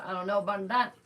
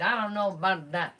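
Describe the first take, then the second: First: Dismissive put-on voice ending on a rise; mock the doubter, lifting "that" at the end; skeptical mock quote, rising. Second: Doubtful, dismissive put-on voice, louder; skeptical mock quote. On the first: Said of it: "They said". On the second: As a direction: shrug it off in a mocking voice. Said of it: "And the American Media Society said".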